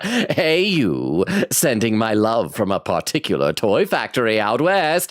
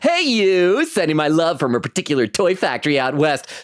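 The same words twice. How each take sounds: First: It is read in a voice that doesn't sound kind. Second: It is read in a kind, nice-guy voice.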